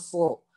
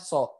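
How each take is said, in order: First: The s is heavy, back of tongue raised. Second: The s is plain, back of tongue not raised. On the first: The speaker calls it right. "Ini belakang lidahnya tuh naik" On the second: The speaker calls it wrong. "Kalau misalkan nggak naik"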